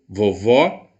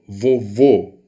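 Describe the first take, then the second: First: "vovó" with an open final ó; open vowel. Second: "vovô" with a closed final ô; closed vowel. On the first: Teacher contrasts vovó with vovô, open vowel. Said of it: "Olha, aberto". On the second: Teacher contrasts vovô with vovó, closed vowel. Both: Shown as a demonstration.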